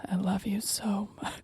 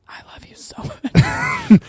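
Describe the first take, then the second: First: Soft breathy whisper. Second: High, slow breathy whisper; right in your ear. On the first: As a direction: whisper it close in the ear. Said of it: "what I would say right in your ear". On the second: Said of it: "right in your ear before you were going to bed". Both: Shown as a demonstration.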